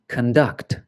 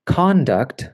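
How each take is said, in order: First: Con-DUCT, with the stress on DUCT; weak first syllable in conduct, strong second. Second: CON-duct, with the stress on CON; first-syllable stress. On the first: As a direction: say conduct as the verb, kun-DUCT. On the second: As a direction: say conduct as the noun, CON-duct. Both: Shown as a demonstration. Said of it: "it can change the pronunciation".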